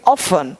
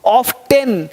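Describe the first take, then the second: First: The t sound is silent. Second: The t sound is pronounced. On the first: The speaker calls it right. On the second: The speaker calls it wrong.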